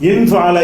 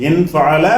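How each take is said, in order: The two takes are said the same way.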